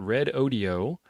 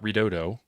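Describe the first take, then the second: First: The name is said as 'red' plus 'odio'. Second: The name is said as one word, 'redodo'. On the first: The speaker calls it right. "which is how they tell me that you're supposed to pronounce that" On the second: The speaker calls it wrong. "It's not redodo"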